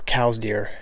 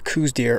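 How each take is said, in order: First: The first word sounds like 'cows'. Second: The first word does not sound like 'cows'. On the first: This is the technically correct form. "I think it's technically cows" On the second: This is how most people say it. "everyone says coues"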